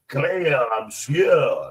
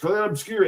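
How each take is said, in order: First: It is said in a put-on, pretentious voice. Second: It is said in a plain, ordinary voice.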